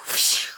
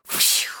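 Both takes have the same delivery.

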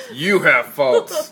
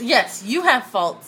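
First: Slow teasing imitation of her; mock her pointed tone, slowly; imitating. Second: Slow, pointed agreement. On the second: Real, not acted. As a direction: lean on it, teasing. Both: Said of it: "look how she said that".

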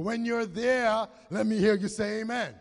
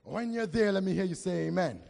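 First: Louder call for amen. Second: Said in the usual way. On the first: Real, not acted. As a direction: press them harder for an amen. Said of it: "That sounds like three quarter". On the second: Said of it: "That sounds like three people".

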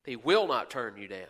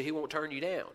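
First: "will" lifted and leaned on firmly; stress on will. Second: Said in the usual way. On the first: Real, not acted.

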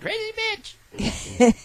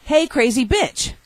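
First: Very high, very slow doll voice; pull string toy. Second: High, slow pull-string doll; talking doll voice. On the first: Pretend. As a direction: drag it out like a toy. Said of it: "pull that string". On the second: Retold or imitated. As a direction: say it like a talking toy. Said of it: "it says".

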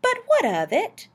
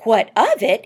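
First: High, rising question; puzzled challenge. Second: Loud, falling retort; incredulous echo. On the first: Acted. Wife questioning why the date matters, dismissive. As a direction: ask it high, as if it hardly matters. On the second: A narrator's reading. Husband repeating wife's question at the radio, incredulous. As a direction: throw the question back emphatically. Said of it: "he repeated".

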